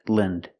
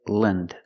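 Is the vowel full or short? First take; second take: short; short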